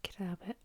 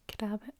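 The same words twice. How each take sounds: First: Crabbit whispered, KRAB-it; whispered Scots word. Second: Crabbit spoken aloud, KRAB-it; voiced Scots word. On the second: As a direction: say Crabbit out loud. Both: Shown as a demonstration. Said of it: "That means".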